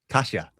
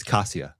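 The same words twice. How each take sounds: First: Kasia with sh, KAH-shah; Polish pronunciation. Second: Kasia with a plain s, KAH-see-ah; American pronunciation. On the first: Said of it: "and then also in Polish". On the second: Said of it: "the American pronunciation is". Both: Shown as a demonstration.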